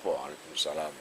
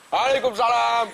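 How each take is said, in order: First: The reply is said quietly. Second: The reply is said loudly and forcefully.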